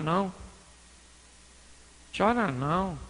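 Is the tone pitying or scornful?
pitying. It is said in a soft, pitying tone. The listener's grief is met with sympathy. "Ele poderia falar assim"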